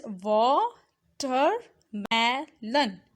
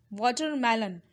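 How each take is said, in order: First: Watermelon slowly split as wa, ter, me, lon; syllable by syllable. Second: Said in the usual way. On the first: Shown as a demonstration. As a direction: sound out watermelon in four separate beats. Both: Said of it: "It's pronounced as".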